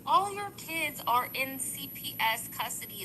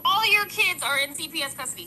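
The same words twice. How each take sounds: First: Controlled but insistent, taking more time; toned-down repeat. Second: Raised, higher-pitched yell; louder, higher, passionate outburst. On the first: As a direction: rein in the yelling and spell it out. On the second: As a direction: get worked up and raise your voice. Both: Real, not acted. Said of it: "Sorry, I'm yelling".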